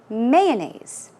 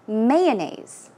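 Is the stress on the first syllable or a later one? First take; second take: first; first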